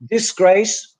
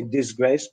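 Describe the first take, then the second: First: DISGRACE with s, diss-GRACE. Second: DISGRACE with z, diz-GRACE; regional Z variant. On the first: Teacher giving their own pronunciation, s sound. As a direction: say DISGRACE with a hissing first s. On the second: Teacher showing the northern form, z sound. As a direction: buzz the first s of DISGRACE. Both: Shown as a demonstration. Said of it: "I would never say disgrace".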